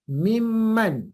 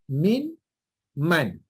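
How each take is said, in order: First: The n merges into a doubled m sound. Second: The n is kept before the m sound. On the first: "bila idgham jadi sabdu" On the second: "Asalnya min man"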